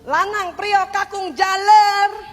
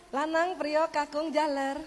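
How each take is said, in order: First: The call is said in an angry voice. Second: The call is said in a calm, normal voice.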